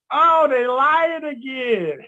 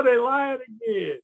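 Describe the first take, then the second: First: Slow, higher, louder knowing drawl; mock weary joke. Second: Slow knowing drawl; mock weary joke. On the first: Telling listeners how to react to fraud, amused drawl. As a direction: roll your eyes at the liars. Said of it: "the first thing you gotta look at". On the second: Repeating the joke for listeners, lighter drawl. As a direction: shrug it off with a grin. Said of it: "You're like".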